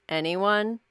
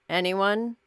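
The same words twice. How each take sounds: Both takes have the same delivery.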